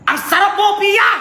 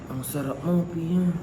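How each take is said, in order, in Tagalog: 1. Parang galit siya. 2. Parang malungkot siya. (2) "Sad, sad, sad"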